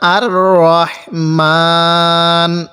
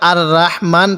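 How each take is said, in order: First: The first vowel is a full, dark 'ro'. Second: The first vowel is a light, open 'ra'. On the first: The speaker calls it right. "র জবর রা কেও পড়ব না" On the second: The speaker calls it wrong. "এখানে আমরা আর রাহমান পড়ব না"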